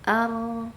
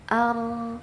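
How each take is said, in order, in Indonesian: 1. Huruf r memiliki getaran ringan dan sedang. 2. Huruf r memiliki getaran ringan dan sedang.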